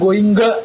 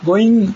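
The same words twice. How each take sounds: First: The ending has an audible hard g sound. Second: The ending is a plain nasal without g. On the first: The speaker calls it wrong. "ಅದರ ಉಚ್ಚಾರ I am ಗೋಯಿಂಗ್ ಅಲ್ಲ, ಲಿಂಗ ಅಂಗ ಭಂಗ ಅಂತ" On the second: The speaker calls it right. "ಅದಲ್ಲ, ಗೋಯಿಂಗ್ ಕಮಿಂಗ್"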